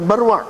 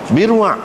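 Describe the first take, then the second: First: The first vowel is an 'a' sound. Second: The first vowel is an 'i' sound. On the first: The speaker calls it wrong. "bukan barwa" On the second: The speaker calls it right. "Birwa, bukan barwa"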